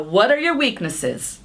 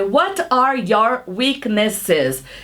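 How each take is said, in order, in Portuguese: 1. Ela é dita rápido, em velocidade natural. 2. Ela é dita devagar, palavra por palavra. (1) "Ele vai te perguntar" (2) "ele não vai falar para você"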